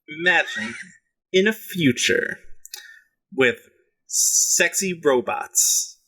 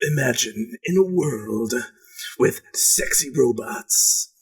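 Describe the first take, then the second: First: It is said in a normal speaking voice. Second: It is said in a movie announcer voice.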